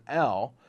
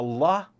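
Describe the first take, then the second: First: Said in the usual way. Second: L sounded out as "luh". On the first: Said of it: "or an L". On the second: Shown as a demonstration. Memory coach teaching the sound for five, L said "luh". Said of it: "the L sound".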